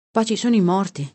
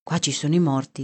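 First: "sono" raised, then falling at the end; emphatic echo. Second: Said in the usual way. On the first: A narrator's reading. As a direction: repeat it with a lift on "sono".

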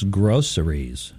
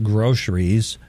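First: "groceries" with a clear "s", three syllables; "groceries" drawn out with an "s" sound; groceries as GROH-suh-reez. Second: "groceries" with a "sh" in the middle; "groceries" squeezed to two syllables with "sh"; groceries as GROH-shrees. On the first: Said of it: "it's groceries". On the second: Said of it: "It's not groceries". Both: Shown as a demonstration.

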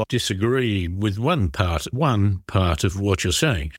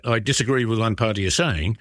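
First: "one part" repeated, slowing on the repeat; spoken emphasis on "one", drawn out; stress on ONE. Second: Said in the usual way. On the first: Shown as a demonstration. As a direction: lean on "one" to limit the disagreement. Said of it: "Of course, if you write that". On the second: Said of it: "if you write that".

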